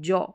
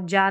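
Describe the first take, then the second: First: The vowel is a rounded 'aw' sound. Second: The vowel is an open 'ah' sound. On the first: The speaker calls it right. "ए डब्ल्यू को हम अ pronounce कर रहे हैं" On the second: The speaker calls it wrong. "जा नहीं पढ़ेंगे"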